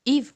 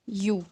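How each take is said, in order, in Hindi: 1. यह शब्द "eev" की तरह बोला जाता है। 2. यह शब्द "you" की तरह बोला जाता है। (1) "इसको हम ईव नहीं प्रोनाउंस करते" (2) "हम इसको कर, क्या करते हैं? यू"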